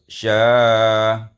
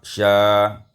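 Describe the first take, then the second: First: The vowel is held a moderate time. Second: The vowel is held very briefly. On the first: "Summa tawassut" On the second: "ma'al qasar, dengan qasar"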